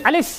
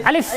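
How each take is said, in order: The two takes are said the same way.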